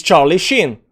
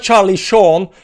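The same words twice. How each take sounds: First: "Sheen" in "Charlie Sheen" with a long ee; corrected pronunciation. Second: "Sean" in "Charlie Sean" drawn out as "shawn"; slow round aw on "Sean"; wrong pronunciation. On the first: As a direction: land firmly on "Sheen", rhyming with bean. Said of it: "It's Charlie Sheen". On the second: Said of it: "It's not Sean". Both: Shown as a demonstration.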